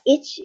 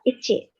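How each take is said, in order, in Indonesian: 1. Vokal akhir dihilangkan. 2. Vokal akhir terdengar jelas. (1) "bisa dibaca ich atau ichi" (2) "bisa dibaca ich atau ichi"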